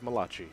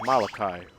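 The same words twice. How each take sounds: First: The last syllable starts with a ch sound. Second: The last syllable starts with a k sound. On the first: The speaker calls it wrong. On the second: The speaker calls it right.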